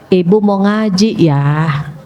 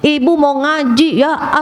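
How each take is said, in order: First: It is said in a soft, gentle tone. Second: It is said in a harsh, fierce tone. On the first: The speaker calls it right. "Ngomongnya pelan-pelan" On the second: The speaker calls it wrong. "Ini pagi-pagi galak"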